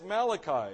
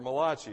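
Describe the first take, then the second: First: The name is said the usual English way. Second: The name is said with an Italian-sounding pronunciation.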